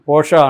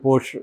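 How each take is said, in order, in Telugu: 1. r లేకుండా చెబుతారు, 'a' శబ్దంతో ముగుస్తుంది. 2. r తో చెబుతారు, 'sh' శబ్దంతో ముగుస్తుంది. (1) "పోషా అనేది జర్మన్ ప్రొనౌన్సియేషన్" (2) "మామూలుగా పోర్ష్ పోర్షే అని కూడా పిలుస్తుంటారు"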